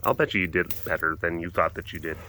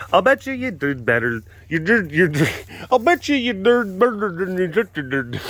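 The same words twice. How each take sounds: First: Low, soft and even; low-key reassurance. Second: High, exaggerated tongue-tied repeat; garbled mock repeat. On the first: Real, not acted. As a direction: say it quietly, pitched down. First take, before garbled repeats. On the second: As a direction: garble it playfully, pitch climbing. Garbles own line, then laughs.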